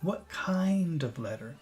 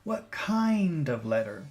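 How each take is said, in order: First: The word kind is stressed and lengthened. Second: The word kind is stressed and lengthened.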